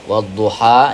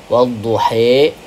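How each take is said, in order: First: The final vowel is an open 'a' sound. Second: The final vowel leans toward an 'e' sound. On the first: "ini fathah" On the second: "ini imalah"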